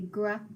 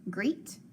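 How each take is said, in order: First: The vowel is a short eh sound. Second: The vowel is a long ee sound. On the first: "I try it with the short E" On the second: "Let's just try that long E"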